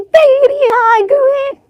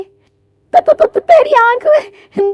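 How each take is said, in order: First: Put-on high, slow old woman saying तेरी आंख में smoothly with no stammer; a lightly voiced elderly mother-in-law finishing the phrase clearly; slow, high, even तेरी आंख में; old woman, clean take. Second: Put-on high, slow old woman stammering over त- त- त- before तेरी आंख में; a lightly voiced elderly mother-in-law who stumbles on the first word; slow, high-pitched stutter on तेरी. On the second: Old woman stammers about eye.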